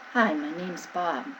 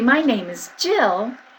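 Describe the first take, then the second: First: The voice is swallowed and does not carry. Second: The voice is projected and carries far.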